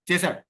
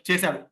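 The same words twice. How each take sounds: The two takes are said the same way.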